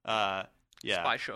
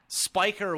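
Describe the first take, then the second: First: The name is pronounced the German way. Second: The name is pronounced the American way. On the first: The speaker calls it right. "the proper German pronunciation" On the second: The speaker calls it wrong. "the total bastardized American version"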